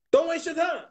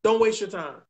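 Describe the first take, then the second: First: DON'T WASTE YOUR TIME pitched high, insistent; emphatic repeat. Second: Said in the usual way. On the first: Real, not acted. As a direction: drive home "Don't waste your time" in a much higher voice.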